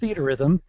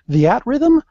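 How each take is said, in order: First: The first word is said as one word, 'theater'. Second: The first word splits into 'the' plus 'at'. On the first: It is the usual English pronunciation of the title. The speaker calls it right. "it's theater rhythm" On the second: It is how the title is heard said in Japan. The speaker calls it wrong. "he was calling it the At Rhythm. Kind of like it's a, a preposition"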